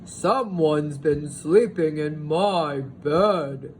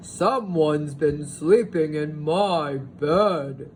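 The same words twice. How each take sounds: First: It is said in a big, loud, growling voice. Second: The same.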